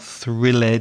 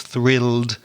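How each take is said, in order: First: The ending is said as an extra syllable. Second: The ending adds no extra syllable. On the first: The speaker calls it wrong. "it's not thrilled" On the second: The speaker calls it right. "it's thrilled"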